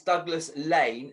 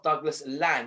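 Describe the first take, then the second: First: The second word has a long 'ay' vowel. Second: The second word has a short 'a' vowel. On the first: The speaker calls it right. "it's Douglas Lane" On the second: The speaker calls it wrong. "not Douglas Land"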